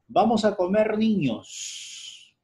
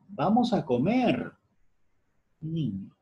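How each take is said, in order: First: It runs on without a pause before niños. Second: There is a pause before niños.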